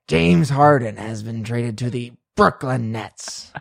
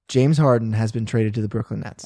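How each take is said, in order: First: It is said in a put-on pirate voice. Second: It is said in his normal voice.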